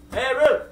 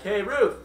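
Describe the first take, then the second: First: Louder, higher call to a friend. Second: Said in the usual way. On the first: Acted. Joe calls his friend Ruth to come over, in a raised voice.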